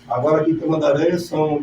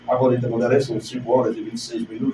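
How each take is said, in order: First: It is said in his natural speaking voice. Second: It is said in a projected announcer voice.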